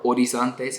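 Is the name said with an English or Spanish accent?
Spanish. The name is said with a Spanish accent.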